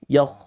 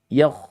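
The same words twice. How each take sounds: Both takes have the same delivery.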